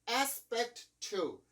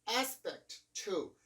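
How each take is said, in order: Both takes have the same delivery.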